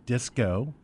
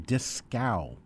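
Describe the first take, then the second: First: The name ends with an 'oh' sound. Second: The name ends with an 'ow' sound. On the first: This is the current form of the name. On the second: This is the original form of the name.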